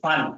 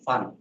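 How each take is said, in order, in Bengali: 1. প্রথম ধ্বনিটি জোর দিয়ে বলা হয়েছে। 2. শব্দটি নিচু সুরে বলা হয়েছে। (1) "একটু জোর দিয়ে পড়বো" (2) "একটু লো টিউন ইউজ করবো"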